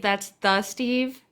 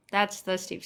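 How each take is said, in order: First: Slow, with "the" drawn out and leaned on; stress on THE. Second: Said in the usual way. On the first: Shown as a demonstration. Streamer praises a viewer, slowly stressing "the". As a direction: say "That's the Steve" hitting "the" hard. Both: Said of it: "That's not just any Steve".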